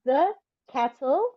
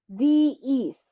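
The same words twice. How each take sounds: First: "The" said short as thuh before cattle; clipped thuh for "The"; "The" as a weak thuh sound; the before a consonant. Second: "the" said as thee before east; long thee for "the"; "the" pronounced thee, not thuh; the before a vowel. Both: Shown as a demonstration. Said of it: "I'm gonna say two words".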